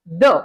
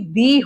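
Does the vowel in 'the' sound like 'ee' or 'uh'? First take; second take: uh; ee. First: The vowel is a short, weak 'uh' sound. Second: The vowel is a long, full 'ee' sound. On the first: This is the usual everyday form. "इसकी pronunciation द होती है" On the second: A superlative follows the article. "जब superlative degree इसके बाद use की जाती है तभी इसकी दी होती है"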